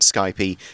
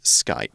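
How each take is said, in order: First: The word has an extra final vowel. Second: The word ends without an extra vowel. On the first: The speaker calls it wrong. "a common mispronunciation" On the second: The speaker calls it right. "it is Skype"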